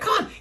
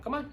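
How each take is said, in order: First: The voice is excited, high and gushing. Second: The voice is calm, even and relaxed. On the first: The dog gets riled up and more fearful. The speaker calls it wrong. "happy and excited and crazy baby voice" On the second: The dog is reassured without being stirred up. The speaker calls it right. "I'm just nice and calm, relaxed"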